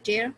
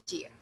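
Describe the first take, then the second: First: "tear" said TAIR; ripping tear. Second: "tear" said TEER; long ee vowel in "tear"; crying tear. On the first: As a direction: rhyme "tear" with air. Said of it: "ये है tear". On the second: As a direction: rhyme "tear" with ear. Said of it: "तो ये है tear". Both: Shown as a demonstration.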